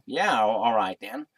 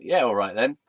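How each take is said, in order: First: Put-on American accent. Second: Said in the usual way. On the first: Bartender agreeing to a snog, in an American accent. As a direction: say it like an American, drawled vowels. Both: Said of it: "in an American accent".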